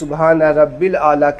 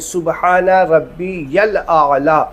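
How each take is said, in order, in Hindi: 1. मध्य शब्द 'rabbil' कहा जाता है। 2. मध्य शब्द 'rabbiyal' कहा जाता है। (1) "बहुत सारे लोग यहाँ पे सुबहान रब्बिल आला सुबहान रब्बिल आला कहते हैं, नहीं" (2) "सुबहान रब्बी यल आला तीन बार कहें"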